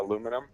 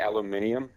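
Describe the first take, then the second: First: It is said with four syllables, American style. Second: It is said with five syllables, Australian style. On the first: This is how most people around him say it. "a lot of people say" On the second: This reveals his Australian origin. "I say"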